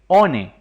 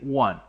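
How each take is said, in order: First: Each letter is read with Spanish sounds. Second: It is said with English sounds. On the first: The speaker calls it wrong. "no como aparece escrito ahí one. Eso estaría incorrecto" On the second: The speaker calls it right. "Lo correcto es decir one"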